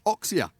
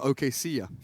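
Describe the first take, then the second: First: The name is said as two syllables, Ox-ia. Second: The name is said as three syllables, O-ke-sia. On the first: The speaker calls it right. "the captain here of five anchors pronounced" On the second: The speaker calls it wrong. "I was calling him Okesia for a long time"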